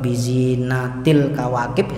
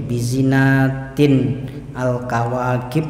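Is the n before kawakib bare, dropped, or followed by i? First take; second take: dropped; bare. First: The n sound is dropped before kawakib. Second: The n is kept without a linking vowel. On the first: "ya salah" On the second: "ya salah"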